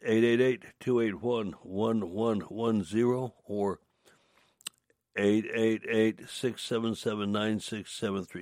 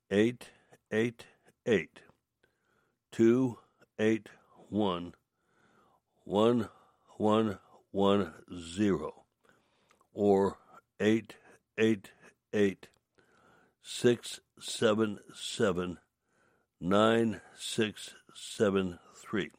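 First: The numbers are read at a faster pace. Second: The numbers are read at a slower pace.

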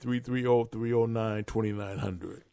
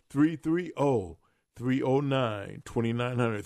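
First: The number is said at normal speed. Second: The number is said more slowly.

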